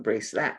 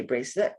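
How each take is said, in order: First: "bracelet" with the last vowel as in "cat", "brace-lat". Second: "bracelet" with the last vowel as in "let", "brace-let". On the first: Correcting the spelling on screen, bracelet said with an A. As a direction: say "bracelet" ending on an A sound. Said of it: "Not bracelet with an A". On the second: Correcting the spelling on screen, bracelet said with an E. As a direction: say "bracelet" ending on an E sound. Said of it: "bracelet with an E". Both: Shown as a demonstration.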